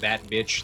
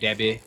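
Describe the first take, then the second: First: Every consonant is clearly pronounced. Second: A consonant is dropped from the words. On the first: The speaker calls it right. "Instead of saying that bitch" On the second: The speaker calls it wrong. "dropping consonants from words"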